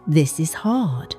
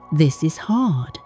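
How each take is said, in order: Both takes have the same delivery.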